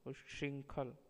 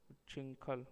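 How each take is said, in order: First: Said in the usual way. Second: उच्छृंखल with a hard "ch"; wrong pronunciation. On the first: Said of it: "शुद्ध शब्द". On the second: Shown as a demonstration. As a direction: say उच्छृंखल as "uchinkhal". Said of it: "अशुद्ध शब्द".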